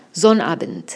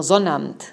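First: Sonnabend spelled out in full, zo-na-bent; every syllable of Sonnabend clear, ending in a crisp bent; careful textbook Sonnabend; carefully articulated. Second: Everyday slurred Sonnabend; clipped casual Sonnabend. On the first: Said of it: "pronunciar más diferenciadamente". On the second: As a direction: say Sonnabend fast and swallow the end, like zonamt. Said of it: "se comen la segunda mitad de la palabra". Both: Shown as a demonstration.

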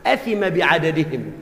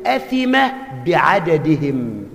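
First: Sheikh's verdict repeated. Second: Drawn-out grave ruling; a hint of the old sheikh's gravity; sheikh's slow verdict. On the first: Retold or imitated. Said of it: "بقى كل واحد فيهم له عنده حق،". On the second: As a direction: pronounce the sin slowly. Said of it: "قال له".

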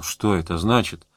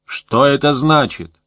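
First: Said in the usual way. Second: Slow, pompous demand. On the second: A narrator's reading. Premier putting on a show for the intruders, pompous. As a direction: draw the question out with pathos. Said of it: "положено ведь говорить нечто патетическое".

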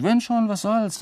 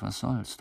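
First: Higher, careless "was soll's?" tossed off; high shrug. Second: Softer, resigned "was soll's?" let drop; soft shrug. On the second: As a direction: let "was soll's?" fall away softly. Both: Acted. Shrugging off being seen.

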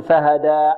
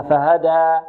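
First: فهدى ending in a hamza stop; wrong glottal stop. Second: فهدى ending on a smooth alif held two beats; correct open ending. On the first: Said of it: "لا نقول فهدى". (نطق خاطئ: الوقف على فهدى بهمزة) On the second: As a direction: let فهدى end open, no stop. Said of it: "وإنما فهدى". (نطق صحيح لفهدى بمد الألف حركتين دون همزة) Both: Shown as a demonstration.

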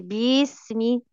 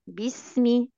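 First: باسمي said smooth with no bounce; the right relaxed way; smooth bismi. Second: باسمي with a bouncing stressed start; the wrong bouncing way; bouncy bismi. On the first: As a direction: glide through باسمي evenly. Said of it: "بدون تنطيط". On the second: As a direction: hop on the first syllable of باسمي. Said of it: "شايفة التنطيطة دي". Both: Shown as a demonstration.

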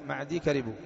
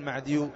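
First: معدي ending in long ee, straight into كربوا; ya left unvowelled. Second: معديو with a u vowel added on the ya; wrongly vowelled ya. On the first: Teacher correcting the error, معدي with no vowel on the ya. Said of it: "سكن الياء". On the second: Teacher warning students off the error, معديو with a voweled ya. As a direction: end معديو in -iyu, as the mistake to avoid. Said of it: "لا تقل معديو". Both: Shown as a demonstration.

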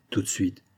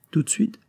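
First: "Tout de suite." in usual pitch, falling at the end; confirming answer. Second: "Tout de suite?" lifted high, rising at the end; questioning. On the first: Wife confirming to her husband, "Tout de suite." falling and matter-of-fact. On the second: Husband checking what his wife did, "Tout de suite?" rising questioningly. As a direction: ask "Tout de suite?" as a probing question, pitched up. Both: Acted.

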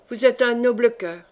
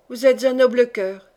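First: Said simply. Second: Louder, fervent and pressing; fervent repeat. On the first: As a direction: say it simply, without pushing. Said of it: "me dit simplement". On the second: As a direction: grip his wrists and insist on it. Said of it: "en me serrant les poignets à les briser". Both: A narrator's reading.

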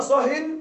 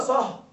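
First: صه said with a nunation -in ending, slowly; drawn out صهٍ ending in -in. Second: صه said short with a sukun, no nunation; clipped صه with a silent end; صه without nunation. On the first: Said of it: "وإذا قيل صه مع التنوين". (صهٍ بالتنوين) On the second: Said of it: "بسكون بدون تنوين". (صه بالسكون دون تنوين) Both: Shown as a demonstration.

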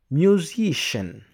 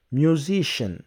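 No difference in how they are said.

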